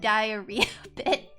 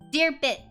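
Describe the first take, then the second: First: The first syllable sounds like 'dye'. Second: The first syllable sounds like 'deer'. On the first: The speaker calls it wrong. "instead of diarrhea bit" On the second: The speaker calls it right. "deer bit instead of diarrhea bit"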